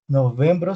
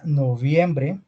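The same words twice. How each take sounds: First: "Noviembre" said as novembro; no ie in "Noviembre", end it in o; Portuguese month name. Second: Slow "noviembre" with ie glide; Spanish month name. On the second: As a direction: spell out "noviembre" slowly, ending in e. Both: Shown as a demonstration. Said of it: "sería noviembre".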